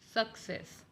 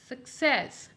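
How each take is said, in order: First: The stress is on the first syllable. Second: The stress is on the second syllable. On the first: The speaker calls it wrong. "not success" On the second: The speaker calls it right. "The more stress will be on the second part of the word"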